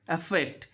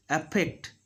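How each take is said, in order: First: AFFECT with an airy F; clear middle F. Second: AFFECT said as "appect"; F made a P. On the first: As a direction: let air through the FF of AFFECT. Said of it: "when F is there in the middle". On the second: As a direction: lips shut on a P in AFFECT. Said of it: "they do". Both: Shown as a demonstration.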